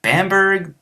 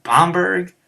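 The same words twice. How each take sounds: First: "Bamberg" with flat "bam" as in bat, pitched high; high American "BAM-berg"; retold pronunciation attempt. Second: "Bamberg" with open "bahm", pitched high; high "BAHM-berg"; retold second pronunciation. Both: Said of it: "I'm like".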